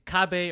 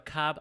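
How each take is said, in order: First: The word ends with a final vowel sound. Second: The word ends on a consonant, final vowel dropped. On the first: The speaker calls it right. "is cabe or cab?" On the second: The speaker calls it wrong. "is cabe or cab?"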